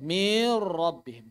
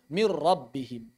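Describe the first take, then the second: First: The sound before the r is drawn out long. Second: It moves straight into a doubled trilled r. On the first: The speaker calls it wrong. "memanjangkan suara ... Juga tidak tepat" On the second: The speaker calls it right. "langsung saja ucapkan ra bertasydid"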